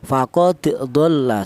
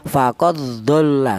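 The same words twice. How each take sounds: First: The d is released with a bouncing echo. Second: The d merges straight into the following dh. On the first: This follows the reading most teachers use. "Jadi cara bacanya dipantulkan ya" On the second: This follows the reading of other reciters. "cara bacanya kalau idgham faqad dhalla seperti itu. Langsung huruf dal ini masuk ke huruf dhad"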